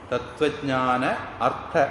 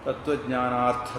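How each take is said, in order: First: The two words are said separately, unjoined. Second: The vowels merge into one long joined word.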